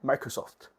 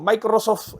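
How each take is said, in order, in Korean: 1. 영어에 가까운 발음으로 읽어요. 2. 스페인식 발음으로 읽어요. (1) "영어에 가깝게" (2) "스페인어로 표현한다고"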